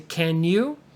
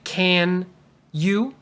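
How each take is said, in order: First: The two words blend into one unit. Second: The two words are said separately. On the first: The speaker calls it right. "the N and the Y almost go together" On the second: The speaker calls it wrong. "Don't say can you"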